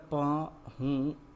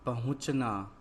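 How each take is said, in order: First: पहुंचना split into separate syllables; पहुंचना in pieces, a gap after each syllable. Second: Said in the usual way. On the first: Shown as a demonstration. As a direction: spell out पहुंचना slowly, sound by sound. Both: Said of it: "तो क्या शब्द बना".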